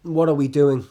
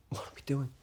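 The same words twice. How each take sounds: First: Louder, lower-pitched exasperated question. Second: Hushed, almost voiceless question; whispered question. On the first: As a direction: ask it out loud, fed up. Exasperated question before quieter repeat. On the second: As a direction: ask it under your breath. Same question repeated under the breath. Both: Acted.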